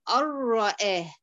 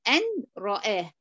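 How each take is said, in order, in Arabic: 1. تندمج النون في الراء دون غنة. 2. تُنطق النون منفصلةً قبل الراء. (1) "دخلتي النون في الراء لكن بدون غنة" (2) "لو قلنا أن رآه سهلة، فيها ثقل كده"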